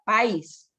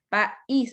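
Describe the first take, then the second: First: The vowels blend into one syllable, stress on a. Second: The vowels split into two syllables, stress on i. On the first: This is how it reads without the accent mark. The speaker calls it wrong. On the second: This is how it reads with the accent mark. The speaker calls it right.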